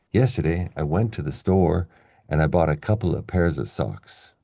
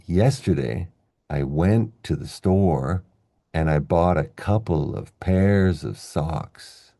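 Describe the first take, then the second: First: Flowing sentence, "went", "store", "bought", "socks" stressed, small words light; natural sentence rhythm. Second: Slow, deliberate stress on "went", "store", "bought", "couple", "pairs", "socks"; stressed content words. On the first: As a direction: say it at everyday speed, stressing "Yesterday", "couple", "pairs", "socks". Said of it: "that's what English sounds like". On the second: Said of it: "So we end up saying". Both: Shown as a demonstration.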